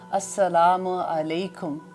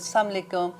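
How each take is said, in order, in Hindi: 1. अभिवादन सावधानी से और साफ़ तरीके से बोला गया है। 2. अभिवादन ढीले और नाज़-नखरे वाले ढंग से बोला गया है। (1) "आप पर सलामती हो" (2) "लाड से ज़रा बोलते हैं"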